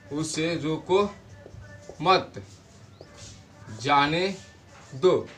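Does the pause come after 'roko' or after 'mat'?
after mat. The pause comes after the word mat. Do not stop him; let him go.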